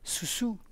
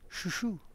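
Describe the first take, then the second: First: The word is said with s sounds. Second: The word is said with sh sounds. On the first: "Le son C jusqu'à le son Ch" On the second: "Le son C jusqu'à le son Ch"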